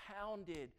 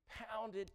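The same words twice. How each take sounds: First: Said in the usual way. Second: Pounded hit high and hard; stress on pounded. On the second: Shown as a demonstration. Preacher hammers the word pounded to his church.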